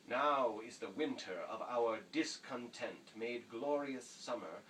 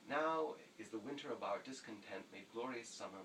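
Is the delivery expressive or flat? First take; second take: expressive; flat. First: It is spoken with lively, varied intonation. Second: It is spoken plainly with little intonation. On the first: The speaker calls it wrong. "with music, in other words, intonation and inflection" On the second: The speaker calls it right. "you memorize it very simply"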